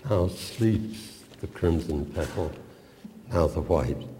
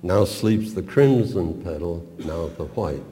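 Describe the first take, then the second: First: "Now" stressed, "crimson" and "white" unstressed. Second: "crimson" and "white" stressed against each other; contrast stress. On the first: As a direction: lean on "Now" at the start of each half. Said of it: "the keynote term is now". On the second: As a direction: hit "crimson" then "white" as opposites. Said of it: "I once used to stress rhetorically the opposing terms". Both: Shown as a demonstration.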